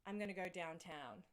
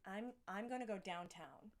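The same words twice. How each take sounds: First: Understated Australian accent; natural Australian vowels on the line; Aussie accent. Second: Passable put-on American accent; Aussie imitating an American, restarting the line. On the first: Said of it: "say it with your Aussie accent". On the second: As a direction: repeat it carefully in an American accent. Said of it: "That's pretty good". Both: Shown as a demonstration.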